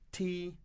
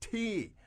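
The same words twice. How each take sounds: First: The pitch stays high and level. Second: The pitch falls sharply from high to low. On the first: A plain offer of tea. "the first time she says to them" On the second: Anger that nobody wants tea. "she's getting angry and she goes"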